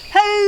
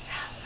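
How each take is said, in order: First: High, loud shouted hello. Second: Barely audible hello; as quietly as we can. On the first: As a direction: call it out as loud as you can. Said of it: "Let's say hello as loud as we can". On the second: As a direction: breathe it out almost silently. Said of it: "Let's say hello as quietly as we can". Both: Shown as a demonstration.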